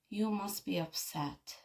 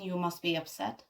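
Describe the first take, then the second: First: It is said warmly, with matching emotional intensity. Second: It is said flatly, without matching emotion. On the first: The feeling is genuinely acknowledged. The speaker calls it right. "let's try" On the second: The feeling is not really acknowledged. The speaker calls it wrong. "Instead of saying"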